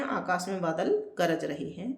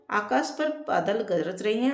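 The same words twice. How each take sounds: First: Said in the usual way. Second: पर lifted with a rising tune, read as the error; teacher reads the wrong sentence पर with a slight rise; wrong version read out. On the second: Shown as a demonstration. Teacher reading the faulty sentence to the class, पर rising.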